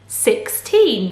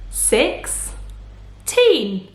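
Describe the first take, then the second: First: Said in the usual way. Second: Put-on "Sixteen" as six, then a long gap, teen; split into syllables. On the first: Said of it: "What's the word?". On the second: Shown as a demonstration. Teacher cutting the word in two, "Sixteen" split by syllable. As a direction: break "Sixteen" apart into two isolated beats. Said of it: "to show the two syllables".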